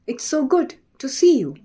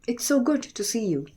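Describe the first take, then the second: First: It is said in a lively, musical way. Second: It is said in a flat, unmusical way.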